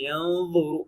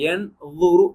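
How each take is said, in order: First: The n sound is hidden, tongue held in between. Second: The n sound is pronounced fully and clearly. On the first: The speaker calls it right. "நாக்க ரெடி பண்ணிக்கிட்டு ஏர்ல இன்பிட்வீன்ல வச்சு" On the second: The speaker calls it wrong. "என் லுருன்னு சொல்லாம"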